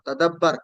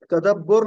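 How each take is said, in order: First: तदब्बर with a short a before the final r; correct form. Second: तदब्बुर with u in the last syllable; तदब्बुर, the mistaken u vowel; wrong vowel shown. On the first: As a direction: clear तदब्बर, no u vowel. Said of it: "इसको तदब्बर कहना है". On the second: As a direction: demo the error तदब्बुर. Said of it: "तदब्बुर नहीं कहना". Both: Shown as a demonstration.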